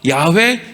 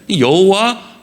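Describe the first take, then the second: First: The name is pronounced as Ya-hwe. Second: The name is pronounced as Yeo-ho-wa. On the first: "야훼라고 읽느냐" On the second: "여호와로 읽느냐"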